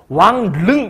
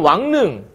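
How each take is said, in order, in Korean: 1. 둘째 음절은 ㄹ 소리로 시작해요. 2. 둘째 음절은 ㄴ 소리로 시작해요. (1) "왕릉 이렇게 발음하는 사람 없어. 엄청 힘들잖아" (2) "리을을 아마도 이렇게 발음할 거예요. ... 니은으로"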